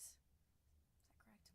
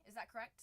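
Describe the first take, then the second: First: Soft, breathy whisper of "Is that correct?"; slow whispered "Is that correct?". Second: Said in the usual way. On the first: Real, not acted. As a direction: repeat "Is that correct?" under your breath.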